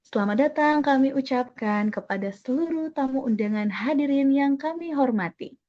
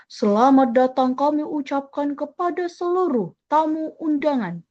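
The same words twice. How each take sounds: First: Polite, lilting wedding greeting; gentle wedding MC. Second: Forceful, ceremonial welcome, wrong for a wedding; overdone booming welcome to guests; loud formal MC. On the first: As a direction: welcome the guests smoothly without forcing the volume. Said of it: "Pasti bilangnya". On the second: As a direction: announce it hard and stiff, like a state ceremony. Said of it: "Kalau mau pakai volume yang keras". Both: Shown as a demonstration.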